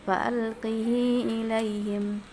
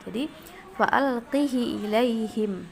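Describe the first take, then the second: First: The h has a lengthened i vowel. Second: The h has a short i vowel. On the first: "mengkasrahkan haknya dengan silah, ya, dengan silah artinya dengan mad, bacanya panjang" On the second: "mengkasrahkan haknya tanpa silah"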